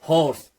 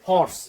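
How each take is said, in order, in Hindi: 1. इस शब्द की शुरुआत में स्पष्ट h की ध्वनि है। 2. इस शब्द की शुरुआत में स्पष्ट h की ध्वनि है।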